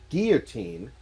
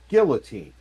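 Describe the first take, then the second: First: The word is said with a French-like pronunciation. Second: The word is said with a typical American pronunciation. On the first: The speaker calls it right. "somebody like myself, who was a francophobe growing up, or a francophile growing up, says" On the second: The speaker calls it wrong. "most Americans say"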